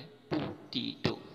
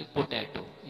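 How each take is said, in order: First: "पोटैटो" slow, as pu-tee-to; correct pronunciation. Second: "पोटैटो" with an open "ai" in the middle; wrong pronunciation. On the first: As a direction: say "पोटैटो" slowly with "tee" in the middle. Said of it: "ये word है पोटैटो". ("पोटैटो" धीरे, बीच में "टी") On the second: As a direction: say "पोटैटो" as po-TAI-to. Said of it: "ये वाला नहीं है". ("पोटैटो", बीच में "टै") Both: Shown as a demonstration.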